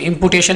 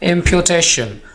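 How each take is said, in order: First: The second syllable sounds like 'pu'. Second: The second syllable sounds like 'pyoo'. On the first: The speaker calls it wrong. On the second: The speaker calls it right.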